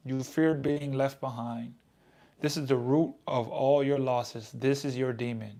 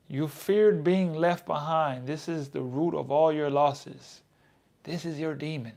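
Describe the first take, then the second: First: Said in the usual way. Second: Slow, weighty reread, each word landing; grave slow reread; slow dramatic reading. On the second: Shown as a demonstration. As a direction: read it back slow to let it sink in. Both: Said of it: "say it like that".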